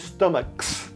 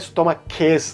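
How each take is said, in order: First: The word ends with a plain s sound. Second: The word ends with an extra es syllable. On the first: The speaker calls it right. "é só o S, sozinho" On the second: The speaker calls it wrong. "não é stomaches"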